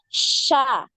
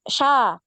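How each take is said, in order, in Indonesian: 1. Bunyi sh itu dipanjangkan dengan udara yang menyebar. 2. Bunyi sh itu pendek dan tiba-tiba. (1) "tapi ada sha, shi ya, karena ada penyebaran udara di dalam mulut" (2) "Jadi bukan langsung sha"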